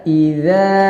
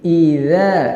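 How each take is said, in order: The two takes are said the same way.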